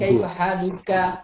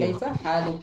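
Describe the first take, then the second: First: The final vowel of the last word is pronounced. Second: The last word ends without its final vowel. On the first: This is the original full form. "মূলত তো ছিল" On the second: This is how it is said in everyday speech. "সেটা না বলে কি বলা হয়"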